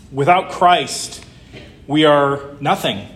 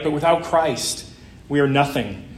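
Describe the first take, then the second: First: Slow, weighty "Without Christ" with stress on "Without"; emphatic. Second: Said in the usual way. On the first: Shown as a demonstration. Pastor driving home the point to the congregation, slow and emphatic. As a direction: lean slowly on "Without Christ, we are nothing". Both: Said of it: "repeated sermon point".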